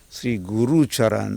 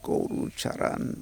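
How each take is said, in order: First: The first vowel of guru is 'oo'. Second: The first vowel of guru is 'o'. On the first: It names the spiritual teacher. The speaker calls it right. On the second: It names a cow or animal. The speaker calls it wrong.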